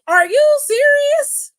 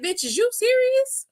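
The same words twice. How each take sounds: First: High, loud, slow mock disbelief; loudly incredulous. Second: High-pitched mock disbelief; incredulous. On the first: Imitating a wrestler challenging his accuser, loudly incredulous. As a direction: stretch it out high and loud, appalled. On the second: Imitating a wrestler answering his accuser, incredulous.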